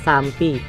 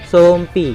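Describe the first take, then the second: First: The first vowel sounds like 'a'. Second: The first vowel sounds like 'o'. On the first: This is the usual way of saying it. "orang mengucapnya dengan kata sampi" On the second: This is how the home village says it. "kita menggunakan huruf O"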